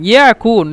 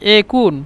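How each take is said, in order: First: The word begins with a 'ya' sound. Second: The word begins with an 'e' sound. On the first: This is the form used in writing. "এখানে ইয়াকুন ইয়াকুন" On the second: This is how Egyptians say it in speech. "মিশরীরা কিন্তু ইকুন ইকুন একুন একুন বলে"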